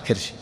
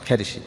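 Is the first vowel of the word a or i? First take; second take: i; a. First: It starts with 'ki' and r has no vowel. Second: It starts with 'ka' and a vowel follows r. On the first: "وإذا كسرت الكاف تسكن" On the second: "إذا فتحت فأنت تكسر الراء"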